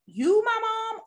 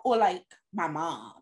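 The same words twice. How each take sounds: First: "you" pitched high and drawn out; retold child's question, lifting "you" well above the rest; stress on you. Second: "my mom" lower, falling at the end; retold child's question, dropping low on "my mom"; stress on mom. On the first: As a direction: set "you" apart with a high, stretched tone. Child asks which mom is meant. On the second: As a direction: set "my mom" apart in a lowered, settled tone. Contrasts the other mom.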